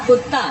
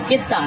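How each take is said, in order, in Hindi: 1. पहला स्वर 'u' की ध्वनि है। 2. पहला स्वर 'i' की ध्वनि है। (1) "काफ पर जम्मा ला रहे हैं" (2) "काफ के नीचे ज़ेर है"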